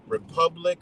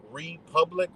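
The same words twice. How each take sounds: First: Said in the usual way. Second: "republic" with a long REE, REE-public; syllable emphasis. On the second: Real, not acted. Driving home the nation's foundations, "republic" as REE-public. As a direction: split "republic" and lean on a long first syllable. Repeats word, stressing first syllable.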